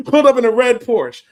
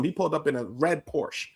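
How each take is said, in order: First: "Pulled up in a red Porsche" repeated louder and higher through a laugh; laughing excited repeat. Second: Said in the usual way. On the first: Shown as a demonstration. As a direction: relish the flashy detail, laughing.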